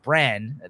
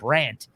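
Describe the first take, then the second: First: The name ends without a t sound. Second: The name ends with a t sound. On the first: The speaker calls it right. "His name's Bran" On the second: The speaker calls it wrong. "I mispronounced the name last episode"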